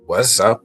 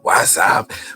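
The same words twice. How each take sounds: First: It is said in his own normal voice. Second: It is said imitating Martin's voice.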